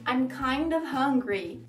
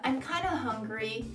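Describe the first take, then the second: First: It is said at normal speed, fully. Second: It is said very fast, words blended.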